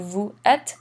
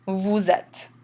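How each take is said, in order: First: "vous êtes" as two words, no Z sound between; no liaison. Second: "vous êtes" joined as "voo-zet", falling end; liaison with Z. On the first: Teacher repeating what to avoid, "vous êtes" split without a Z. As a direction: separate "vous êtes" with silent S, ending on a rise. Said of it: "So again, instead of". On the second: Teacher recapping the liaison, "vous êtes" linked by a Z sound. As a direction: run "vous êtes" together with a Z between. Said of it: "run this together in something called the liaison". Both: Shown as a demonstration.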